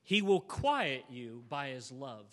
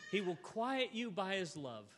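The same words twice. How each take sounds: First: Quiet lingered on, lower and slow; stress on quiet. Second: Said in the usual way. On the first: Shown as a demonstration. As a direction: lean on the word quiet, slow and low. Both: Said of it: "here's my favorite phrase".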